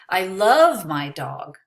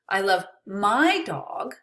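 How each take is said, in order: First: The word love carries the emphasis. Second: The word my carries the emphasis. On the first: The feeling is more than liking. "I don't just like her, I love her" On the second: Another person's dog is not loved as much. "Maybe I don't love your dog"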